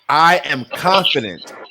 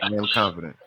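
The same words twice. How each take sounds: First: It is said firmly, with conviction. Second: It is said quickly, without conviction.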